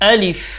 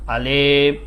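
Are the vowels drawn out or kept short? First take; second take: short; drawn out. First: The vowels are kept short, without drawl. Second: The vowels are drawn out with a drawl. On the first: The speaker calls it right. "এখানে কোনো টান দেওয়া যাবে না।" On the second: The speaker calls it wrong. "এরকম টান দিয়ে ফেলে, এরকম হবে না।"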